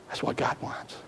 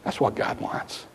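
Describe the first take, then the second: First: Even fainter whisper, leaning on God. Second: Breathy whispered statement, barely audible. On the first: Pastor repeating to the congregation, fainter whisper. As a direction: breathe it, almost silent. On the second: Pastor whispering to the congregation, hushed whisper. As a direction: let it drop to a whisper. Whispered summary after God's voice. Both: Real, not acted.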